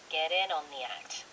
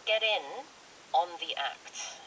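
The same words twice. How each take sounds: First: The phrase is said quickly, run together smoothly. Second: The phrase is said in separate, broken-up chunks. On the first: "좀 빨리 읽을 수는 있겠지만" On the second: "이렇게 끊어서 읽는 거예요"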